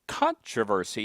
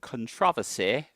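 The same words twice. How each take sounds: First: It is said in the speaker's usual way. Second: It is said the way people in England might.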